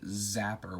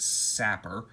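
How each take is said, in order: First: The word begins with a Z sound. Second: The word begins with an S sound. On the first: The speaker calls it wrong. "I always pronounce it Zapper" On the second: The speaker calls it right. "when it's Sapper"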